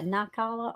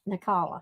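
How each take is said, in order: First: The first vowel is a long I sound. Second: The first vowel is a short I sound. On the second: "a short I"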